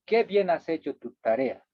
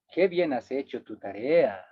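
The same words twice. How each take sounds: First: Said in the usual way. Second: Dry ironic praise. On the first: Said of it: "No es lo mismo decir". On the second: Shown as a demonstration. Teacher showing ironic praise to the class, sarcastic. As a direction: say it so it means the opposite. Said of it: "la entonación de la segunda expresión me dice que estoy diciendo lo contrario".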